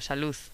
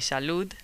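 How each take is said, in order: First: The final D is softened or dropped. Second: The final D is pronounced clearly. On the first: "But people would say salud or salud" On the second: "the proper way of pronouncing it would be salud with a D"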